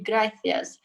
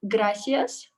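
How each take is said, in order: First: The c is said with a 'th' sound. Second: The c is said with an 's' sound. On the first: This is how it is said in Spain. "using my tongue when I say th, and that's how you pronounce it being in Spain" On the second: This is how it is said in Mexico. "using normal se because that's how they say it in Mexico"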